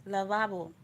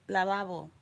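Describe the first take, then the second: Both takes have the same delivery.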